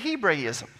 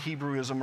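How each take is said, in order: First: The middle syllable sounds like 'bray'. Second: The middle syllable sounds like 'brew'. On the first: "is a Hebraism" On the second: "we normally pronounce it Hebrewism around here"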